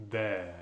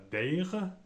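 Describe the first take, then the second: First: "their" as "dè", R dropped; right, no R. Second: "their" with a sounded French R; slow "their" ending in R; wrong, R pronounced. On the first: Teacher giving the correct R-less their. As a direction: say "their" with no final R. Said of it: "mais bien". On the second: Teacher demonstrating the mistake to avoid. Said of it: "Non pas their". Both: Shown as a demonstration.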